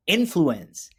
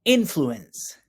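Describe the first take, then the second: First: Slow, clear model of influence; teacher models "influence" for students to repeat, slow and clear; model word, said slowly. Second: Slow, even "Influence" for the class; repeat-after-me model. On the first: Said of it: "Can you say that with me?". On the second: Teacher leads class repetition, slow and clear. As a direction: say "Influence" clearly for students to echo. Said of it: "Repeat after me". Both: Shown as a demonstration.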